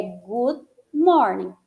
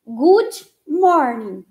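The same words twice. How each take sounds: First: Good morning, slow, no i at the end; correct pronunciation. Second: Good morning with an added i, gut morningi; mock the Brazilian extra i on good morning; wrong Brazilian way. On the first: Teacher models correct good morning slowly. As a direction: say good morning cleanly, no extra i. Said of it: "não tem que colocar esse i". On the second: Teacher imitates wrong Brazilian good morning. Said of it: "É completamente errado". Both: Shown as a demonstration.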